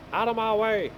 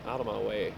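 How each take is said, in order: First: Higher, louder shout to clear the road; yelling out of my way. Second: Said in the usual way. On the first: Real, not acted. Driver yelling at traffic blocking the road, mock shout.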